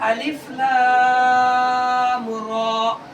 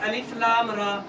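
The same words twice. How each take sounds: First: Alif and lam are drawn out; ra is short. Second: Alif and lam are not drawn out at all. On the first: The speaker calls it right. "अलिफ लाम को ज्यादा खींचेंगे और रा को हम कम खींचेंगे" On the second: The speaker calls it wrong. "या दोनों कोई नहीं खींच रहे बिल्कुल भी, अलिफ लाम रा ऐसे पढ़ते हैं। ऐसे नहीं पढ़ना है इसको"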